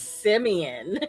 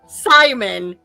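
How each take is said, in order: First: The name is said like Simeon. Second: The name is said like Simon. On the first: The speaker calls it right. "he pronounces it Simeon" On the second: The speaker calls it wrong. "it's not Simon"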